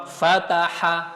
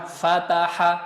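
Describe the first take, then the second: Both takes have the same delivery.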